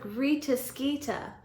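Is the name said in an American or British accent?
British. The name is said in a British accent. The speaker calls it right. "I like how it's like"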